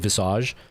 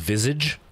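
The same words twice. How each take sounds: First: It is pronounced with a French-influenced sound. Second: It is pronounced with an English-style sound. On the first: "some French influence here"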